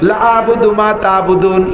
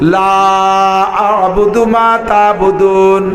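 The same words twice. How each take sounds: First: The vowel of 'la' is cut short. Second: The vowel of 'la' is drawn out long. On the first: The speaker calls it wrong. "লারে টানেন নাই" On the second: The speaker calls it right. "কিভাবে শুদ্ধ কাফিরুন আগে পড়ি"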